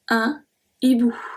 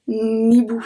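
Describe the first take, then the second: First: The article stays apart from the noun. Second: The n sound runs into the noun. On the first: The speaker calls it right. "we separate the article from the noun" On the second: The speaker calls it wrong. "I don't say that"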